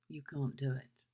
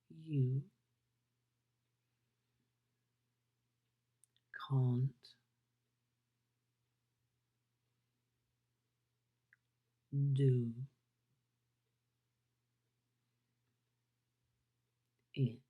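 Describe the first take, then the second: First: It is said at a normal, quick pace. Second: It is said very slowly.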